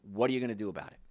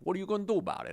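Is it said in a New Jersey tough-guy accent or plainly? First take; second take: plainly; New Jersey. First: It is said in his plain everyday voice. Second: It is said like a New Jersey tough guy.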